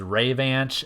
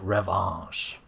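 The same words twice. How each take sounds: First: The name is read literally, English-style. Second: The name is said with French pronunciation. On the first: The speaker calls it wrong. "which I always pronounced as Revanche as a kid because I'm just very literal that way" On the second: The speaker calls it right. "it's a French word meaning revenge, it's safe to assume that it's likely supposed to be pronounced like revanche"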